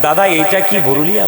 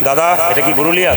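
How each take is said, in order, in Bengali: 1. নরম, বন্ধুত্বপূর্ণ সুরে জিজ্ঞেস করা হয়েছে। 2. কড়া, রুক্ষ সুরে জিজ্ঞেস করা হয়েছে। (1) "মানে ভালো কথাই বললাম" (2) "এই মুখ দেখাচ্ছেন কেন আমার গ্রামে এসে"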